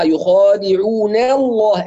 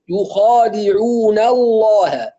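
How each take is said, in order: First: The n syllable's vowel leans toward an e sound. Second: The n syllable is light while the l is heavy. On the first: The speaker calls it wrong. "يعني تقليل أو إمالة للفتح" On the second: The speaker calls it right. "نا نو"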